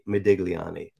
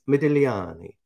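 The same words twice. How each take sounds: First: The G is pronounced in the name. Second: The G is silent in the name. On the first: The speaker calls it wrong. "it's very tempting to say Modigliani" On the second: The speaker calls it right. "the G is silent"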